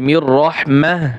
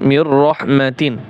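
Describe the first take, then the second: First: The last word ends with a soft 'ah' sound. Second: The last word ends with a full 'atin' sound. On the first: The reader stops at this word. "যদি ওয়াকফের নিয়ম আদায় করেন" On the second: The reader continues without stopping. "যদি যেভাবে আছে সেভাবে পড়তে চান"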